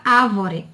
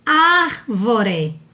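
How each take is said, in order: First: ÁVORE with no R before the V; dropped R. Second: ÁRVORE with the R before the V clearly held; sounded R. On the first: Teacher showing the word without its R, R dropped. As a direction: say "ávore" as "A-vo-re", first R left out. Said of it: "Se não tivesse o R". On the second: Teacher pointing out the R, clearly sounded syllable-final R. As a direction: say "Árvore" slowly as "AR-vo-re". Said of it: "olha aqui o R". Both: Shown as a demonstration.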